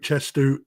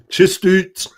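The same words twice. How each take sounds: First: It is said in the speaker's ordinary accent. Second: It is said in a put-on Scottish accent.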